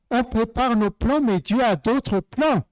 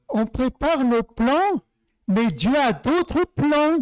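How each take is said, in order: First: Said in the usual way. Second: « plans » et « d'autres » appuyés, lentement et plus haut; détacher chaque mot, lent, avec insistance sur « d'autres »; sentence martelée. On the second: Shown as a demonstration. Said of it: "Donc, je dis". (proclamer lentement, en appuyant sur « d'autres plans »)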